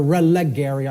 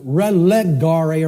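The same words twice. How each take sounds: First: "relegare" said as reh-leh-GAIR-ee; "gair" in place of "gar" in "relegare"; "relegare" ending like "Gary"; alternative Latin ending. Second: "relegare" said as reh-leh-GAR-ay; slow "relegare" with an "ah" in GAR; Latin ending in -ay. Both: Shown as a demonstration. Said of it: "I can't remember which infinitive".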